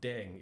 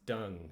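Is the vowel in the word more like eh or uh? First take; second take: eh; uh. First: The vowel sounds like eh. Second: The vowel sounds like uh. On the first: The speaker calls it wrong. "This isn't deng" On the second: The speaker calls it right. "E is an uh sound"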